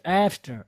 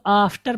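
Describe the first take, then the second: First: "आफ्टर" opened with an "ae" sound, "aeftar"; correct pronunciation. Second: AFTER with a broad "aa" start, "aaftar"; common mispronunciation. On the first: Teacher modelling the word for learners, correct pronunciation. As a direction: start AFTER on a flat "ae", not "aa". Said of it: "थोड़ा सा ए की". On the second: Teacher showing learners how people misread it, common mispronunciation. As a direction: say "आफ्टर" with a long open aa. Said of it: "इसको हम लोग आफ्टर पढ़ते हैं". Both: Shown as a demonstration.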